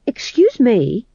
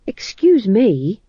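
First: Higher, louder slow excuse me; insistent timid fool; bumbling fool. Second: Slow, hesitant high excuse me; nervous polite interruption; bumbling fool. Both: Acted.

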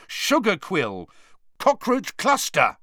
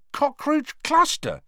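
First: Loud, high, desperate shouting; angry yell. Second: High, slow, amazed question. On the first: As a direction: keep yelling passwords. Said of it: "he yelled angrily". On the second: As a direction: ask it in disbelief. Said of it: "he said, amazed". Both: A narrator's reading.

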